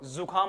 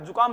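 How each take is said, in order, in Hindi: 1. यह शब्द z की आवाज़ से शुरू होता है। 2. यह शब्द j की आवाज़ से शुरू होता है। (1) "जुकाम होती है" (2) "जुकाम नहीं होती वो"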